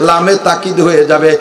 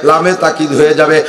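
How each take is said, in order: Both takes have the same delivery.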